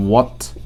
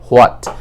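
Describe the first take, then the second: First: "what" with a pure W, no H; corrected pronunciation. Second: "হোয়াট" with a sounded H, ho-at; common mispronunciation. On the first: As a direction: glide straight into "what" from rounded lips. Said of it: "এটার উচ্চারণ হবে". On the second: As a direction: open "হোয়াট" on H before the glide. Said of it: "আমরা বলি হোয়াট". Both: Shown as a demonstration.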